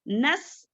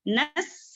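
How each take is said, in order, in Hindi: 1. 's' की आवाज़ पतली और हल्की है। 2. 's' की आवाज़ पतली और हल्की है।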